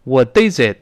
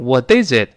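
First: The t is pronounced forcefully and deliberately. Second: The same.

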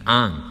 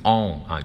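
First: An open American vowel, mouth wide. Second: A rounded British vowel, mouth less open. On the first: "我们美式英语当中它就读成on，嘴巴张大发成on" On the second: "英式英语它可能会读成on"

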